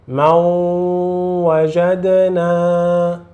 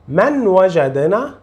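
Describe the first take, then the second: First: The n merges into a nasalized w sound. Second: The n is pronounced clearly before the w. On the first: This is the correct way to recite the Quran. The speaker calls it right. "Você vai fazer a letra nun como a letra uau" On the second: This is how ordinary Arabic is read. The speaker calls it wrong. "Não diga من وجدنا"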